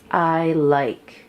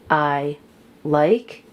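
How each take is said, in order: First: The words are joined smoothly without a break. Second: The words are said separately, with a break. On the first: The speaker calls it right. "more fluidly they could practice" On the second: The speaker calls it wrong. "instead of them saying"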